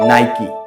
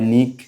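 First: Two syllables, ending with a 'kee' sound. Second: One syllable with a short 'i' vowel. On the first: The speaker calls it right. "সঠিক উচ্চারণ হবে নাইকি" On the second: The speaker calls it wrong. "অনেকে উচ্চারণ করে নিক"

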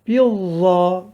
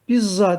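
First: The z sound is lisped, like th. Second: The z sound is a plain hissing z. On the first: The speaker calls it right. "Za peltektir" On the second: The speaker calls it wrong. "Bizza değil"

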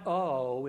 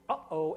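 First: The two parts run together without a break. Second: A sharp glottal break separates the two parts. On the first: The speaker calls it wrong. "notice it's not uh-oh" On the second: The speaker calls it right. "there's a very sharp break there"

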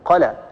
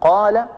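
First: The vowel after the first consonant is short. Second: The vowel after the first consonant is long. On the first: The speaker calls it wrong. "قال بدون مد" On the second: The speaker calls it right. "بدل أن نقول قال"

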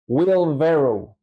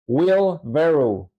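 First: The vowel in 'barrow' sounds like 'eh'. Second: The same.

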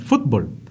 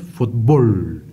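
First: The stress is on the first syllable. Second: The stress is on the second syllable. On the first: "nosotros no decimos fútbol" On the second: "con acento en la O"

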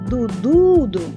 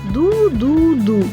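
First: The middle syllable is stressed. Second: All three syllables are said evenly, none stressed. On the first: "ми будемо виділяти наголосом середній склад" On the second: "Він грає її рівно"

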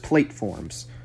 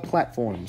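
First: It is sounded out like 'plate-forms'. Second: It is said as the usual 'platforms'. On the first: It mimics a misspelled word. The speaker calls it wrong. "Because that's how he spelled it" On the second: It is the correct word. The speaker calls it right. "It's called platforms"

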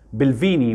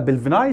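First: The word ends with an 'ee' sound. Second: The word ends with an 'eye' sound. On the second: "وفي ناس بتقولها بلفيناي"

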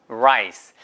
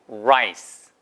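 First: The r is said with rounded lips. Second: The r is said with rounded lips.

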